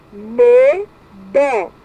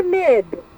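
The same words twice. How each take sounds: First: "Medo" split as me, do with a pause between, both vowels full; "Medo" as two detached syllables. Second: Said in the usual way. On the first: Shown as a demonstration. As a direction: sound out "Medo" in two beats. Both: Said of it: "separar em sílabas".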